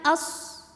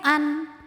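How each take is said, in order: First: The n merges completely into the following sound. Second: The n sound is fully and clearly pronounced. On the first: "tidak juga dimasukkan as" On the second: "tidak jelas n an"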